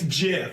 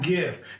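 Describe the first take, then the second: First: It begins with a soft J sound. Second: It begins with a hard G sound. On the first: The speaker calls it right. "like the peanut butter" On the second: The speaker calls it wrong. "It's not GIF"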